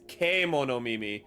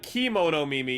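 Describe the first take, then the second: First: The first word begins with a 'keh' sound. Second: The first word begins with a 'kee' sound. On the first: The speaker calls it right. "it's E" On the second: The speaker calls it wrong. "It's not Kimono Mimi"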